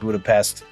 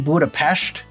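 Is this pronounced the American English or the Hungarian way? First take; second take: American English; Hungarian. First: It is said with an American English pronunciation. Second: It is said with a Hungarian pronunciation. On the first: "I'm in America. I speak English. I pronounce it Budapest" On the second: "that's how they pronounce it in Hungary"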